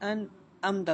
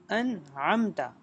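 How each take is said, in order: First: The middle consonant is a glottal stop. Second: The middle consonant is a pharyngeal sound. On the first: The speaker calls it wrong. "इसको हमने हमजा नहीं बनाना" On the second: The speaker calls it right. "आइन"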